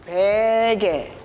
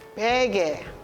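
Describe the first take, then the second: First: It is said slowly. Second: It is said fast.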